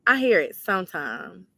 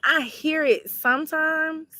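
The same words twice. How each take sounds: First: Said in the usual way. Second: Slow, high, drawn-out Southern accent demo; showing her accent. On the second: Shown as a demonstration. Answering a viewer about her accent, slow high drawl. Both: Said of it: "You said my accent?".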